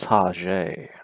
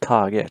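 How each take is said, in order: First: It is pronounced the French way. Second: It is pronounced the English way. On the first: The speaker calls it right. "I think that's how you pronounce it in French" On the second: The speaker calls it wrong. "It's not Target"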